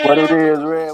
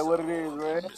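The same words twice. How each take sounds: First: Loud, hyped greeting. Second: Said in the usual way. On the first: Real, not acted. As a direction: call it out loud.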